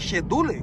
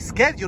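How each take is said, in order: First: The word has a Brazilian-style mispronunciation. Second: The word has a standard English pronunciation. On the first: The speaker calls it wrong. "como eu falava" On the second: The speaker calls it right. "A maneira correta"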